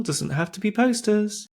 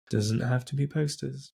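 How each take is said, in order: First: Pitched way up, emphatic and playful; high emphatic. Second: Said in the usual way. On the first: Real, not acted. Host insisting to co-hosts, high playful emphasis. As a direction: push the point up high, teasing.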